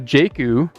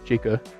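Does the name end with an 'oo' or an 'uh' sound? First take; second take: oo; uh. First: The name ends with an 'oo' vowel. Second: The name ends with an 'uh' vowel. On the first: The speaker calls it right. "the pronunciation is oo" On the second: The speaker calls it wrong. "not uh"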